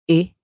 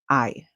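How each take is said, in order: First: The vowel is said with its short sound. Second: The vowel is said with its long sound. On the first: "Sometimes it would make a short song" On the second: "a long song where it calls its name"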